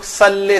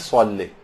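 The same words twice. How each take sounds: First: It starts with a plain, light s sound. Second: It starts with a heavy, emphatic s sound. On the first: The speaker calls it wrong. "اس میں لوگ صلی سین سے پڑھتے ہیں" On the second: The speaker calls it right. "یہاں صاد کی آواز نکالنی ہے"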